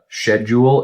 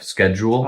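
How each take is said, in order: First: It is pronounced the way Canadians say it. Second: It is pronounced the usual American way. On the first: "I think they say uh, schedule" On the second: "instead of"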